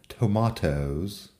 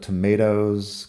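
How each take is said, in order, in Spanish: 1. La palabra tiene pronunciación británica. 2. La palabra tiene pronunciación americana. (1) "Supongo que los británicos dirían tomatoes o algo parecido" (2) "que es la pronunciación americana"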